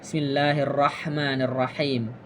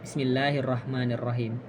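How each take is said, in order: First: The h sound is a throaty, pharyngeal h. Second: The h sound is a plain, light h. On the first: The speaker calls it right. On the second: The speaker calls it wrong.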